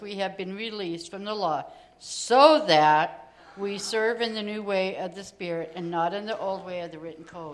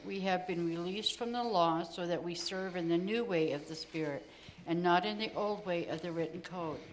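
First: The words "so that" are emphasized. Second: The words "so that" are not emphasized.

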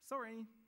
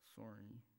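First: It is said cheerfully. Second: It is mumbled guiltily.

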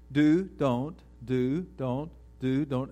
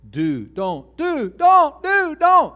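First: The voice stays at one calm level throughout. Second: The voice grows louder and higher with each word. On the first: The conversation stays calm. The speaker calls it right. "everybody stays on the same level" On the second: The argument is escalating. The speaker calls it wrong. "The voice is rising"

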